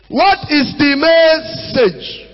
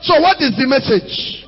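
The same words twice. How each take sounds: First: "What" stretched and stressed, very slow; slow emphatic question. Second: Said in the usual way. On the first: Shown as a demonstration. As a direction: drag out "What is the message" for weight.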